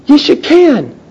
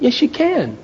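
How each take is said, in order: First: Firm rallying. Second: Soft reassurance. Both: Real, not acted.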